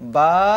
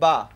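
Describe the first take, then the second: First: The vowel is drawn out and long. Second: The vowel is short and said quickly. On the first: "এখন একই পড়া টেনে পড়ব" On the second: "আগে পড়ছি হারকাতের উচ্চারণ তাড়াতাড়ি করতে হয়"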